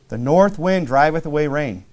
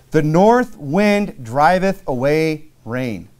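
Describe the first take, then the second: First: Said in the usual way. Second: Very slow, weighty reading, "north" leaned on; slow scripture reading. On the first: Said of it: "repeat of verse". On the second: Shown as a demonstration. Preacher reading the verse slowly to the church. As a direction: draw out "The north wind driveth away rain". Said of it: "reading verse, repeated".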